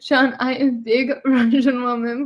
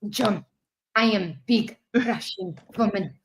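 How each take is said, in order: First: It is read in the speaker's normal accent. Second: It is read in a put-on Russian accent.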